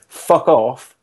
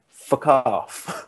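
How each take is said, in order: First: It is said with full force. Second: It is said softly and held back. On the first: The speaker fully commits to the swearing. "instead of saying" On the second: The speaker is not fully committed to the swearing. "kind of like slight"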